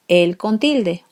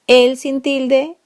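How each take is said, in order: First: Said in the usual way. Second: A rising "El" to set it apart; stress on El. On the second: Shown as a demonstration. Teacher contrasting el without and with accent. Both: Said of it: "Por ejemplo".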